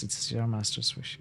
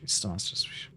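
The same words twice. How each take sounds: First: Said in the usual way. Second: "It's the master's wish" whispered under the breath, mocking; whispered aside. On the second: Real, not acted. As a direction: breathe it out as a sly whispered echo.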